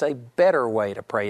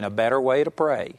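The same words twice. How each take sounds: First: "better" stands out above the rest; stress on better. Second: Said in the usual way. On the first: Shown as a demonstration. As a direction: lean on the word "better". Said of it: "I'm emphasizing". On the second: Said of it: "I've entitled this whole teaching".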